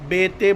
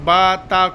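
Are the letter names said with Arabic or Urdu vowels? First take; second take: Urdu; Arabic. First: The letter names end in an 'e' vowel. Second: The letter names end in a long 'aa' vowel. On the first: The speaker calls it wrong. "बे ते बोल के नहीं पढ़ना" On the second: The speaker calls it right. "अरबी को अरबी तरीके से पढ़ना"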